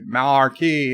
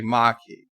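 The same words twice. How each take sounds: First: Marquis with a clear R, "mar-kee"; R sounded. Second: Marquis as R-less "mah-kee"; R dropped. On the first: Host shows the criticised way, Marquis as "mar-kee". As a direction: stretch "mar" in Marquis, R and all. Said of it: "and they get upset". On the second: Host shows what viewers want, Marquis as "mah-kee". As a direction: leave the R out of Marquis. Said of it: "They want me to say". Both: Shown as a demonstration.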